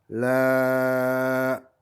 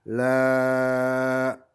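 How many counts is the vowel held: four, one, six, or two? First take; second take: four; four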